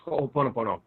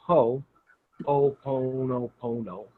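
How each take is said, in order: First: Ho'oponopono run together quickly; real fast. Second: Ho, then Oponopono slowly; Ho'oponopono sounded out. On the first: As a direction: rattle off Ho'oponopono in one go. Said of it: "you can say it real fast". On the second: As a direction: teach Ho'oponopono in slow, separated pieces. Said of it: "teach them how to say it". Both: Shown as a demonstration.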